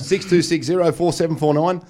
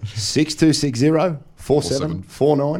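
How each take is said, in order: First: The number is said at normal speed. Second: The number is said slowly.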